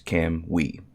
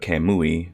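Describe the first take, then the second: First: The name is said with two syllables. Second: The name is said with three syllables. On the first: The speaker calls it right. "Think of it as two syllables, Cam and we" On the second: The speaker calls it wrong. "instead of Kamui"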